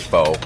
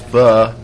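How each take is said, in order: First: It is said with an American English pronunciation. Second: It is said with a Vietnamese pronunciation. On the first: "I just say pho because that sounds better to me" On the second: "when you say it correctly"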